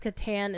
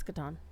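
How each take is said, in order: First: The last vowel is the 'a' of 'ass'. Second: The last vowel is an open 'ah' sound. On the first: The speaker calls it wrong. "anybody who says Catan is saying it wrong" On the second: The speaker calls it right. "It's Catan"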